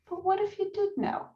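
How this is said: The tone is gentle and curious. It invites the listener to open up. The speaker calls it right. "in a very gentle and curious kind of way"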